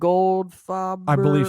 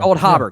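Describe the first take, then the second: First: The name is said with an F sound. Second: The name is said with an H sound. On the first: The speaker calls it wrong. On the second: The speaker calls it right.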